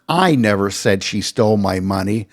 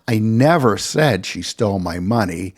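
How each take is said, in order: First: The word "I" is stressed. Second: The word "said" is stressed. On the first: Someone else said it. "I'm not the one who said she stole my money" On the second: It was never actually said aloud. "I never accused her of stealing my money"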